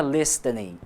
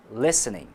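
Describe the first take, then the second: First: Listening with a clearly sounded T, lis-te-ning; pronounced T. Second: Listening without any T, lis-ning; silent T. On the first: Teacher shows the mistake to avoid, listening with the T pronounced. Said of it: "Nós não pronunciamos a letra T". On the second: Teacher shows correct pronunciation, listening with a silent T. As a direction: drop the T in listening, going from S straight to N. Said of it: "É só eliminar o T". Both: Shown as a demonstration.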